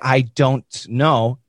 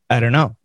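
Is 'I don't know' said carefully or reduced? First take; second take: carefully; reduced. First: Every word is pronounced fully and carefully. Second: The words run together with reduced sounds. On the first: The speaker calls it wrong. "Don't say" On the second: The speaker calls it right.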